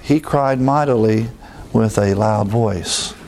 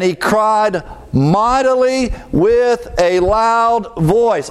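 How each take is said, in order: First: The sentence is said quietly and flatly. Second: The sentence is said loudly and forcefully. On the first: The speaker calls it wrong. "I can't say it like that" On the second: The speaker calls it right. "I have to say it that way so you understand"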